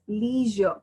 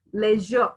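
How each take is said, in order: First: "leisure" as lee-zhuh; American-style "leisure", lee first; American pronunciation. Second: "leisure" as lezh-uh; British-style "leisure", leh first; British pronunciation. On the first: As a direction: say "leisure" with a long ee. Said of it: "In American". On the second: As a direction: say "leisure" with a short e, final r dropped. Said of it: "in British". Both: Shown as a demonstration.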